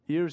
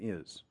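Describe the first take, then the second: First: The final R sound is clearly pronounced. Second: The final R sound is dropped. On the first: The speaker calls it right. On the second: The speaker calls it wrong.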